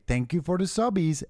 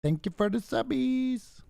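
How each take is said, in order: First: High sing-song group thank-you; high choir voice. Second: Squeaky high cutesy thank-you; high girly voice. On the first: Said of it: "everyone in a choir". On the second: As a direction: chirp it in a high girl's voice. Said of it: "Just invite Smeeve to Discord and say". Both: Retold or imitated.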